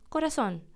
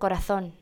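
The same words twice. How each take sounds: First: The z is pronounced like an s. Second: The z is pronounced like a th. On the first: This is how the speaker's own region says it. "para nosotros es corazón" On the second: This is how someone from Spain may say it. "para un español puede ser corazón"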